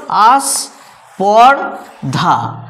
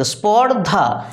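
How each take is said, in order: First: Teacher counting out three syllables; three-syllable demo. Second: স্পর্ধা slowly in two syllables, spor and dha; two-syllable demo. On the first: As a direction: chop আস্পর্ধা into আস, পর, ধা. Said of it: "তখন কিভাবে ভাগ হলো". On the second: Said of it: "যদি স্পর্ধা বলি". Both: Shown as a demonstration.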